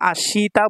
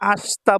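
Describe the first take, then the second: First: The vowel after the 'sh' sound is fully pronounced. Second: The vowel after the 'sh' sound is dropped. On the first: "তাহলে এটা আশিতা বলতে পারেন, সমস্যা নাই" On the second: "আস্তা বললে সবচেয়ে ভালো হয়"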